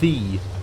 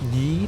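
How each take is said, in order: First: The word begins with a th sound. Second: The word begins with a y sound. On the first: The speaker calls it right. "but rather the" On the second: The speaker calls it wrong. "would have never been pronounced ye"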